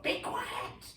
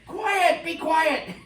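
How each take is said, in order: First: Breathy whisper of "Be quiet". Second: Teacher shouting. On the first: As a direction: hush them in a whisper. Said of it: "a bad teacher might just yell out". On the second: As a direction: shout at a noisy class. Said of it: "what does the teacher say". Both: Retold or imitated.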